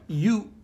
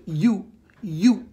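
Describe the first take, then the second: First: "you" said high and pointed; stress on you. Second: "you" punched louder, twice; stress on you. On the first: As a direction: hit the word "you" like a pointing finger. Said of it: "this first word". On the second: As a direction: jab the word "you" at them. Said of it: "when you lead with". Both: Shown as a demonstration.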